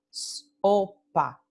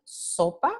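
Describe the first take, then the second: First: "sopa" broken up as s, o, pa; sound by sound. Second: Said in the usual way. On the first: Shown as a demonstration. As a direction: draw out each sound of "sopa", isolating the "o". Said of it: "la palabra escrita con los fonemas". ("sopa" separando los sonidos: s, o, pa) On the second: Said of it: "la palabra escrita en ortografía convencional".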